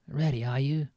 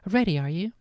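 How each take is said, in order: First: It is said in Uncle Vernon's voice. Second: It is said in Missus Weasley's voice.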